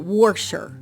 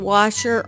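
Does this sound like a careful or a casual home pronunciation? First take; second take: casual home; careful. First: It is said in the speaker's home accent. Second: It is said in a careful, standard way. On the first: "normally when I'm at home, I say washer" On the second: "I'm trying my best to say washer"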